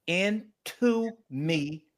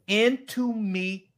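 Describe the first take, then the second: First: "Into me" said even slower and softer; stressed wordplay. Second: "Into me" said very slowly, stretched out; stressed wordplay. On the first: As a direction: stretch "Into me" slowly and softly. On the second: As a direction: draw out "Into me" like a reveal. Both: Shown as a demonstration.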